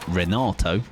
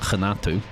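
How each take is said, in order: First: The name is said with a plain English pronunciation. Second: The name is said with a Portuguese pronunciation. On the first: The speaker calls it wrong. "If I was to just read it as I normally would" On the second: The speaker calls it right. "I will try and always say like"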